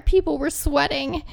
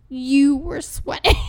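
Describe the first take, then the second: First: Said in the usual way. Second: Slow comeback with a heavy "You"; pointed retort. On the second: Retold or imitated. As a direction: stress on "You", drawn out slowly. Quoted retort throws blame back.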